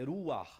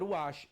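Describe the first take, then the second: First: The word ends in a throaty rasping sound. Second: The word ends in a soft 'sh' sound. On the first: The speaker calls it right. "é Ruach" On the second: The speaker calls it wrong. "Não é Ruach"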